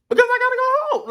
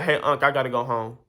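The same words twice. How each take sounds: First: High-pitched, loud, fast disbelief; exasperated. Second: Said in the usual way. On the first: Real, not acted. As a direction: squeak it out in total disbelief. Exasperated retelling of uncle's outburst. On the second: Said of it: "Simple like that, flat out".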